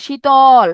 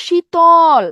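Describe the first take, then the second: First: শীতল spoken louder, the o after ত clear. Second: শীতল said as shee-to-l, the ত carrying a clear o vowel; lost-letter demo: say শীতল with the hidden o after ত; শীতল with an o sound after ত. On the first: Teacher to students, repeating শীতল louder so the o is heard. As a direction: lean on শীতল and let the ত take its o. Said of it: "এই অধ্বনিটা তয়ের সাথে কি হয়ে গেছে?". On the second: Teacher to students, sounding out শীতল with a clear o after ত. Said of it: "তয়ের সাথে একটা উচ্চারণ করেন তো". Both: Shown as a demonstration.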